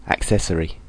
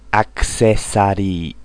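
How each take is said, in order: First: Said in the usual way. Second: "Accessory" with a full a before the tapped r; "Accessory" said the Japanese way, akusesarii; "Accessory" as a katakana word, even syllables; Japanese loanword style. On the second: Shown as a demonstration. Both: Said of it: "Japanese English".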